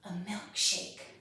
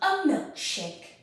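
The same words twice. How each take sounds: First: A quiet, sneaky, secretive voice. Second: A big, proud, theatrical voice. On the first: "in a sneaky voice" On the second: "in our biggest, proudest actor voice"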